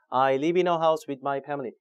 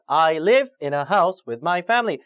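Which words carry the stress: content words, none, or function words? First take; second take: none; content words. First: The words are said flat without stress. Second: The stress falls on the content words. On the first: The speaker calls it wrong. "전혀 등급을 줄 수가 없습니다" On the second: The speaker calls it right. "이렇게 자꾸 연습을 하셔야 돼요"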